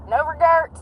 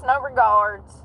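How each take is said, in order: First: Indignant. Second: Said in the usual way. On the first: Real, not acted. Scolding speeding drivers.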